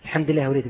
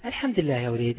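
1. الصوت واثق ودافئ ومطمئن. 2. الصوت متردد وغير واثق وخائف. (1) "رأيت نبرة الصوت المختلفة" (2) "رأيتم عيني كيف حائرة ترددة خائفة حتى نبرة صوتي؟"

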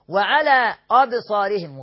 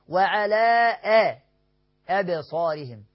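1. الهمزة مغلظة. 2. الهمزة مرققة. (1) "غلط" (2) "الهمزة دائما مرققة"

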